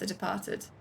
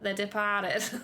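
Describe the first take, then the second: First: It is said in the speaker's plain accent. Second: It is said in a bad Brooklyn accent.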